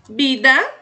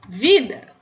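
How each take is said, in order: First: The word starts with a B sound. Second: The word starts with a V sound. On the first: "O V no espanhol tem som de B em alguns países" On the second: "Em outros países tem som de V mesmo"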